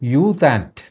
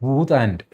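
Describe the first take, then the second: First: The name begins with a 'yoo' sound. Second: The name begins with a plain 'oo' sound. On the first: This is the adapted form used by newspapers. "നമ്മുടെ പത്രങ്ങളെല്ലാം അതിൻ്റെ ഉച്ചാരണം യൂത്ത് ആൻറ്റ് എന്നാക്കി മാറ്റി" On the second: This is the name's actual form. "വാസ്തവത്തിൽ അങ്ങേരുടെ പേര് ഊത്ത് ആൻറ്റ് എന്നാണ്"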